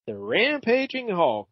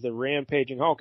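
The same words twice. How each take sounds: First: High, drawn-out RAMPAGING; dramatic title read. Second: Said in the usual way. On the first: Acted. Host reads out the comic's cover logo, dramatic title read. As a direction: stretch the title out with showy relish.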